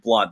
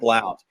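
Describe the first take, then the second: First: The vowel sounds like the one in 'but'. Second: The vowel sounds like the one in 'out'. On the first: This is how people from the South say it. "it's pronounced Blunt. The O is uh, is silent" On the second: This is how people outside the South say it. "everybody who's a Yankee ... pronounces it Blount"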